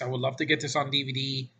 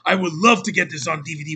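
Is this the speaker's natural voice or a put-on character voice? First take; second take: natural voice; character voice. First: It is said in the speaker's natural voice. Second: It is said in a put-on character voice.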